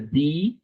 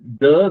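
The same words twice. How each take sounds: First: It is said with a long 'thee' vowel. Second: It is said with a short 'thuh' vowel. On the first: It comes before a vowel. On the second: It comes before a consonant.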